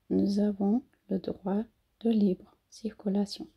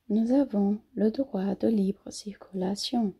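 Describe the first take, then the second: First: "Nous avons" again linked with a Z sound; liaison demo. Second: "Nous avons" linked with a Z sound; liaison demo. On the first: ("nous avons" com liaison em Z) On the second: ("nous avons" com liaison, S com som de Z) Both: Shown as a demonstration. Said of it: "eu fiz uma liaison do S com a vogal".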